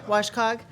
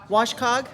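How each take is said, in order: Both takes have the same delivery.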